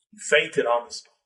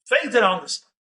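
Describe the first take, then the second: First: Said in the usual way. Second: Fainted lifted and pressed harder than the first telling; repeated for emphasis. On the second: A narrator's reading. Storyteller repeats the shock for listeners, emphatic. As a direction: hit Fainted again so it lands.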